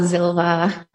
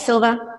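First: The name begins with a buzzing z sound. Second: The name begins with a hissing s sound. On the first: The speaker calls it wrong. "Not Silva or Zilva" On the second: The speaker calls it right. "it's Silva, silent Z"

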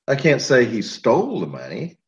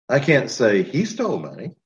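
First: The word "stole" is stressed. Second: The word "he" is stressed. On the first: He may have got it another way. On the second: Someone else may have done it.

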